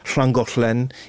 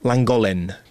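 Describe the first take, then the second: First: The double L sounds are a hissy 'hl'. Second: The double L sounds are a plain L. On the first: Marks the speaker as a local. The speaker calls it right. "чтобы говорить «шлангошлен»" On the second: Marks the speaker as an outsider. The speaker calls it wrong. "Они все говорят «ланголен»"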